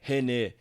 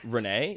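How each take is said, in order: First: The name is said with Portuguese pronunciation. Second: The name is said with English pronunciation. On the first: The speaker corrects it to the true form. "because that's how you say it in Portuguese" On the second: Others say the name the way they assume. "they'll be like, uh, Ren- Renee, like Renee"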